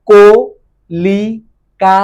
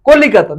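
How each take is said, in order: First: কলিকাতা very slowly in four separated syllables. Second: Said in the usual way. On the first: Shown as a demonstration. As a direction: hold each of the four beats of কলিকাতা apart. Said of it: "কলিকাতা, দেখো". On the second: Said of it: "দেখো".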